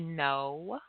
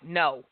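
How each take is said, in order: First: It is said calmly but firmly. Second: It is said harshly and abruptly.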